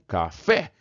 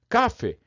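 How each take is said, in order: First: The stress is on the last syllable. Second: The stress is on the first syllable. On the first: The speaker calls it right. "O fé é o forte" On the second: The speaker calls it wrong. "Se eu não acentuasse café, como é que eu teria que ler café? Isso, ia ficar café"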